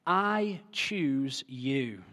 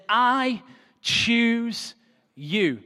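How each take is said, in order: First: Very slow, quiet and deliberate; drawn-out gentle I choose you; tender declaration. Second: Very slow, higher, stretched out; lifted, drawn-out I choose you; solemn declaration. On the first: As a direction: let each word land softly, I choose you. Preacher voices God choosing. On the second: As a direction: proclaim it slowly like a blessing. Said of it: "intercepts his life and says". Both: Acted.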